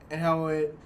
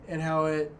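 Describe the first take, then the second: No difference in how they are said.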